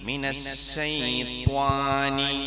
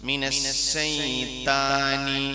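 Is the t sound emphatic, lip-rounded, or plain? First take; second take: lip-rounded; plain. First: The t is said with rounded lips. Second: The t is a plain, light t sound. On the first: "ഇത് രണ്ട് രൂപം തെറ്റാ" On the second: "ഇത് രണ്ട് രൂപം തെറ്റാ"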